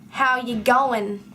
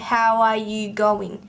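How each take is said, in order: First: The word 'are' is left out. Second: The word 'are' is clearly said. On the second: "I don't tend to say"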